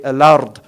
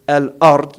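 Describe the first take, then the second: First: Al-ard said with the lam run in and a full open a; correct al-ard. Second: Al-ard said with a plain, thin a, as it should not be; wrong al-ard. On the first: Teacher gives students the correct al-ard, lam blended in. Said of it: "you say al-ard". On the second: Teacher demos the wrong al-ard to students, light flat vowel. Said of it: "You don't say al-ard". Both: Shown as a demonstration.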